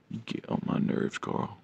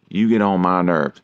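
First: Unvoiced whisper, much softer. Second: Said in the usual way. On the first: Real, not acted. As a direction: hiss it under your breath. Teasing the cat, then repeating louder.

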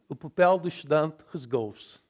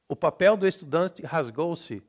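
First: Louder European reading, endings swallowed; European Portuguese accent. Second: Louder Brazilian reading, all vowels sounded; Brazilian Portuguese accent. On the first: Teacher contrasting with Brazil, reduced European Portuguese. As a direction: read it as in Portugal, final vowels dropped. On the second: Teacher reading a sample, full-vowelled Brazilian Portuguese. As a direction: read it Brazilian-style, estudante ending in "chi". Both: Shown as a demonstration.

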